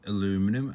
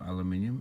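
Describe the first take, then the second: First: It is said the American way. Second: It is said the British way. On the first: "as the Americans say" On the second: "as we say over here"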